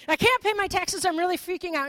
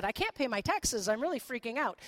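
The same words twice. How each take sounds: First: Hammed-up panic, much higher and louder; mock panic. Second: Said in the usual way. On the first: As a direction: play the frightened disciple, overdone. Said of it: "This is a paraphrase, by the way". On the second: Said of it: "This is a paraphrase".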